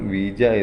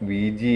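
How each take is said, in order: First: The word ends with an 'ah' sound. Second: The word ends with an 'ee' sound. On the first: "British English ഇതിന്റെ ഉച്ചാരണം വീജ" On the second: "American English വീജി"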